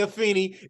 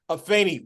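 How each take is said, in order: First: The vowel in the name sounds like E. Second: The vowel in the name sounds like A. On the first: The speaker calls it wrong. "I know there's a temptation to say Afeni" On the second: The speaker calls it right. "Afeni with the A"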